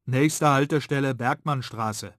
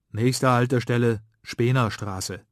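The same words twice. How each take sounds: First: Raised announcer voice; tram announcement. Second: Slow, loud announcer call; tram announcement. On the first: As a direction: call the stop like a tram speaker. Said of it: "Da kommt die Ansage". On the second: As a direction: announce the stop like a tram speaker. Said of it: "tönt die Ansage". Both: Acted.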